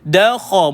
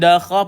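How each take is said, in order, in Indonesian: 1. Vokal setelah kh terdengar seperti o. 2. Vokal setelah kh terdengar seperti a. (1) "pastikan vowel dia vowel O"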